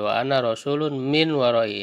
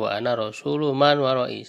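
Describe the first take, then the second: First: Rasul ends in an n sound before min. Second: Rasul ends in a plain vowel without n. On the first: The messenger is described as coming from behind. "ditanwinkan itu rasulnya wa ana rasulun ya, dan eh, minnya dikasrohkan" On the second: The speaker is the messenger of those behind. "ya sudah dibaca wa ana rasulu man warai saja"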